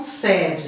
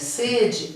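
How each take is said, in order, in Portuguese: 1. A vogal E é dita aberta. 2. A vogal E é dita fechada. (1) "Para não confundir aqui com sede" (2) "é com E fechado"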